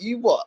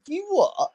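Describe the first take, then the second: First: Higher-pitched retold indignant comeback; indignant retort. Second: Very high-pitched incredulous retort; incredulous challenge. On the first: Friend answering the guy who called it disgusting, mildly indignant. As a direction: act out a friend's affronted challenge. Acted quote of friend challenging insult. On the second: Retold or imitated. Speaker turning on the guy after hearing the story, incredulous. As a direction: act out turning round in disbelief.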